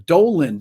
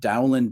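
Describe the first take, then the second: First: The first vowel rhymes with 'go'. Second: The first vowel rhymes with 'cow'. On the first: Some people hold this is the correct way. "Some people say the the, the pronunciation is Doland" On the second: This is the speaker's usual way of saying the name. "I always called him John Dowland"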